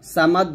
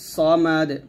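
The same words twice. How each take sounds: First: The s sound is light and thin. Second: The s sound is heavy and thick. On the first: The speaker calls it wrong. "সামাদ বলবেন না" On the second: The speaker calls it right. "এর সব মোটা হবে"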